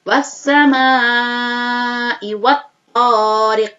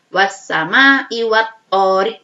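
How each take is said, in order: First: The vowel in 'sama' is drawn out at length. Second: The vowel in 'sama' is held briefly. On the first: The speaker calls it right. "lima sampai enam ketukan atau tiga alif" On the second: The speaker calls it wrong. "tidak dibaca dua ketukan, tidak dibaca satu alif, bukan"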